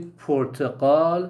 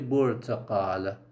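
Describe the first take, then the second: First: The word begins with a p sound. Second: The word begins with a b sound. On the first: "when they want to say Portugal" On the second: "they say Portugal"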